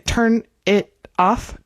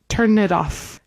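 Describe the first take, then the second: First: Each word is said separately, with small breaks. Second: The words run together like one word. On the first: The speaker calls it wrong. "We don't say" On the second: The speaker calls it right. "It's like all one word"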